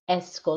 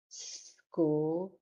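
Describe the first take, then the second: First: An extra vowel is added before the s. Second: It starts directly with the s sound. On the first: The speaker calls it wrong. "It's not S school" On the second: The speaker calls it right. "S at the beginning, like school"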